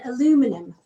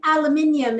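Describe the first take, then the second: First: "aluminum" as uh-LOO-muh-num; American pronunciation. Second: "aluminium" as al-uh-MIN-ee-um; British pronunciation. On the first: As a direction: stress LOO in "aluminum", four syllables. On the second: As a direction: stress MIN in "aluminium", five syllables. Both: Shown as a demonstration. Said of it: "the difference between aluminium and aluminum".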